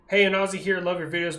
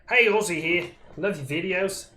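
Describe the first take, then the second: First: It is said in his normal accent. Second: It is said in an Australian accent.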